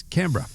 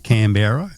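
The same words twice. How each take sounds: First: Canberra squeezed to "CAN-bra"; local pronunciation. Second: Canberra as three syllables, "can-BERR-a"; wrong pronunciation. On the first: Host confirming how locals say the capital, "CAN-bra". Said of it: "It's Canberra". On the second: Host showing how not to say the capital, full "berra". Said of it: "Not Canberra". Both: Shown as a demonstration.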